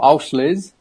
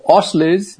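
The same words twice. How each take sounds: First: Auslese opening on the diphthong "au"; variant German pronunciation. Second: Auslese opening on a plain "o"; variant German pronunciation. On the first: Expert offers the other option, Auslese starting with "au". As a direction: say Auslese as "aush-lêz". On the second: Expert offers one option, Auslese starting with "o". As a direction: say Auslese as "ósh-lêz". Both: Shown as a demonstration. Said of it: "ou Auslese".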